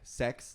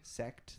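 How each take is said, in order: First: The T sound is dropped, sounding like sex. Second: The T sound is clearly pronounced at the end. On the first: The speaker calls it wrong. "how much I say sex" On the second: The speaker calls it right. "I really have to pronounce the T"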